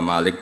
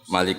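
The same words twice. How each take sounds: First: The first vowel is drawn out long. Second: The first vowel is kept short. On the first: "bil Maddi" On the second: "bil Qasri"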